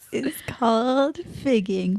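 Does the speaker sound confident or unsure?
confident. It is said firmly, with clear confidence.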